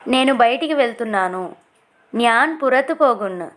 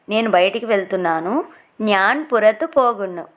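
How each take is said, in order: Both takes have the same delivery.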